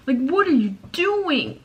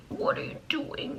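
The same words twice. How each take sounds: First: High, loud and slow, mock-scolding herself; a playful loud mock scold at her own reflection; mock exclamation. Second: High, slow unvoiced whisper; a playful secret whisper to herself; mock whisper. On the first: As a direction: call out her own antics in disbelief. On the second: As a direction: hush the same question in disbelief.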